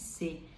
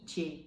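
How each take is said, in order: First: It begins with an s sound. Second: It begins with a ch sound. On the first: This is how a Brazilian reader would say it. The speaker calls it wrong. "no Brasil a gente leria" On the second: This is how it is said in Italian. The speaker calls it right. "mas aqui seria"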